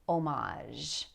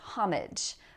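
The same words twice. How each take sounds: First: The word is said in a French way. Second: The word is said in an English way. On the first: "pronounce it the more French way" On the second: "Sometimes people say homage"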